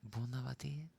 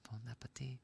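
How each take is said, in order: First: It is said with a fancy French-sounding accent. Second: It is said with a plain English-sounding accent. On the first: "I'm sounding fancy when I say it like that" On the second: "instead of"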